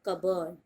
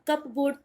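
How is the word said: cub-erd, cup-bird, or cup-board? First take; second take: cub-erd; cup-board. First: It sounds like cub-erd, without p or r. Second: It sounds like cup plus board. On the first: The speaker calls it right. "English में बोलते हैं कबर्ड" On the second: The speaker calls it wrong. "अब कप बोर्ड तो आप बोलेंगे नहीं"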